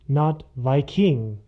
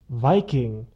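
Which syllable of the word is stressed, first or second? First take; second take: second; first. First: The stress is on the second syllable. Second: The stress is on the first syllable. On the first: The speaker calls it wrong. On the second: The speaker calls it right. "the accent is on the first syllable"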